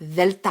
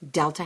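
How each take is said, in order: First: The word begins with a th sound. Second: The word begins with a hard d sound. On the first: The speaker calls it right. "It's a hard T H, like the" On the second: The speaker calls it wrong. "There's no letter D in the Greek language"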